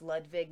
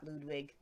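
First: Ludwig with a v sound in the middle; German pronunciation. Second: Ludwig with an English w sound; anglicized mispronunciation. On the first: Correcting co-host on the king's name, Ludwig with v. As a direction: pronounce the w of Ludwig like v. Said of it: "It's pronounced Ludwig". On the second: Showing co-host the mistake, Ludwig with English w. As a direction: say the w of Ludwig as in "wig". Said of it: "not Ludwig". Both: Shown as a demonstration.

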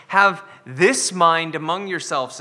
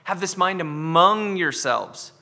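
First: "Have this mind among yourselves" with "Have" hit hardest and slower; stress on have. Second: "Have this mind among yourselves" with "among" stressed, slow. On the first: Pastor quoting the verse to his church, stress on "Have". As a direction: lean on "Have", slow and deliberate. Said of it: "in the second half". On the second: Pastor re-quoting the verse for his church, stress on "among". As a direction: lean into "among", slow and deliberate. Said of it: "talking about this among yourselves". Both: Shown as a demonstration.

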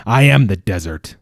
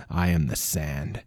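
First: Loud, heavy growl landing on am. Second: Low, slow, quiet growl. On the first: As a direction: roar the claim out, leaning on am. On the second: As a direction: growl it low and slow, barely above breath. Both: A narrator's reading. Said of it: "looked at the creature and growled".

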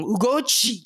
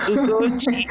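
First: Ugochi higher and emphatic, falling firmly at the end; strong, upset father. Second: Ugochi higher, lilting and light; song-like, not strong. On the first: Retold or imitated. Guest imitating her upset father, Ugochi said strongly. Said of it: "it would be really strong". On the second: Shown as a demonstration. Guest contrasting with upset father, Ugochi lightly lilted. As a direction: say Ugochi as a gentle tune without force. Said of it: "not Ugochi".

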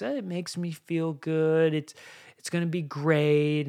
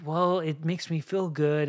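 First: Lightly voiced child, a little higher; a hint of a kid making excuses; half-hearted childish pleading, slightly higher. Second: Said in the usual way. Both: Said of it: "it's like a child voice".

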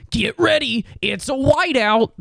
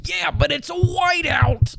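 First: High hyped-up stadium announcer; hype announcer. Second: High, slow stubborn shout; mock shout. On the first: Retold or imitated. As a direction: pump up the crowd, high. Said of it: "is like". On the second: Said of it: "Aren't you playing Northwestern?".

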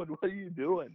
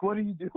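First: High, laughing through the question; mocking disbelief with a laugh. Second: High incredulous what-are-you-doing; much higher, half-mocking disbelief. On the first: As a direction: repeat it while cracking up. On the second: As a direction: pitch it up like stunned teammates. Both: Teammates staring in disbelief.

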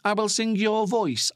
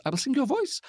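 First: Said in the usual way. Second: High rising question on "voice"; puzzled self-query. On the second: Real, not acted. Podcaster catching a slip of the tongue, puzzled rise on "voice". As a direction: query your own slip, "voice" lifting sharply.

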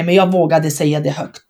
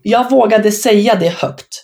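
First: Jag given the weight, rest of the phrase falls away; stress on jag. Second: Vågade leaned on, slow and deliberate; stress on vågade. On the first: Player insisting that she herself said it, stressing jag. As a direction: punch the word jag. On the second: Proud player recalling her title promise, stressing vågade. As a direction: hit the word vågade, slowly. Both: Shown as a demonstration.

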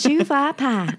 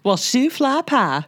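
First: Higher, copying the Southern "shoe fly pie"; Southern accent attempt. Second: High, slow put-on Southern drawl of "shoe fly pie"; Southern accent. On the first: Copying a friend's Southern phrase in Southern accent. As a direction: try on the Southern twang. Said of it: "I'm trying to learn the South". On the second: Friend shows her Southern accent in Southern accent. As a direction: ham up a Southern twang. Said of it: "doing a little bit of an accent".

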